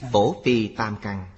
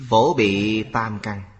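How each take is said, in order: First: The second word is pronounced 'phi'. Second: The second word is pronounced 'bi'. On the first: The speaker calls it right. "Cổ âm đọc là phi" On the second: The speaker calls it wrong. "Chữ này không đọc là bị"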